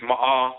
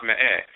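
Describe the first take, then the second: First: MA'AH with an open "ah" vowel; pronounced MA'AH. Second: ME'EH with an "eh" vowel; pronounced ME'EH. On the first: Lecturer teaching a term for look, pronounced MA'AH. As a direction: say "ma'ah", ending on a long ah. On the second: Lecturer giving the variant pronunciation, ME'EH. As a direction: say "me'eh", ending on eh rather than ah. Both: Shown as a demonstration. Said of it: "it's also pronounced me'eh".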